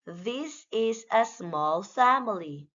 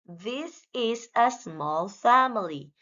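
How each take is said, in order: Both takes have the same delivery.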